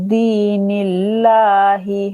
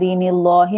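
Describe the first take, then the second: First: The l sound is thin and light. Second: The l sound is thick and heavy. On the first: The speaker calls it right. "लाम को बारीक रखना है" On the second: The speaker calls it wrong. "मोटा नहीं पढ़ना है, दीनिल्लाहि नहीं पढ़ना है"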